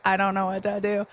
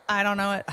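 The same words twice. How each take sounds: First: Robot voice. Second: Stiff machine voice, a bit higher; robot voice. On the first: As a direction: play a lost, clunky robot. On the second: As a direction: talk like a confused robot. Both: Pretend. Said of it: "I'm speaking in my robot voice".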